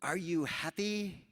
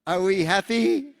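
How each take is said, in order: First: Camel steward voice. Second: High, loud, slow and laughing; camel steward voice. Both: Retold or imitated. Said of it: "he goes".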